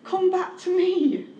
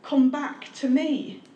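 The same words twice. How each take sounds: First: Higher, earnest plea; God repeating the call, higher and pleading; God's pleading call. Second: Slow, tender plea; God calling his people back, slow and tender; God's gentle call. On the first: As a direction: lift it up into an appeal. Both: Acted. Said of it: "And God wants to say to you tonight".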